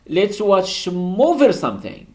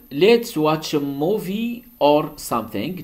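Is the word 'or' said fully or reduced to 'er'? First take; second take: reduced; full. First: The word 'or' is reduced to 'er'. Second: The word 'or' is pronounced fully.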